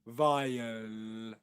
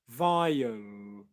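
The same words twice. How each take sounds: First: The final L is light, tongue forward. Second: The final L is dark, tongue back.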